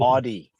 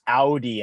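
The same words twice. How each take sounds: First: Audi said AH-dee; rejected pronunciation. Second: Audi said OW-dee; corrected pronunciation. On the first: Co-host correcting somebody, showing the wrong Audi as AH-dee. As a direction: open Audi with AH, no W glide. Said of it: "It is not". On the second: Co-host correcting somebody, showing the right Audi as OW-dee. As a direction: open Audi with a full OW glide. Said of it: "it's Audi". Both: Shown as a demonstration.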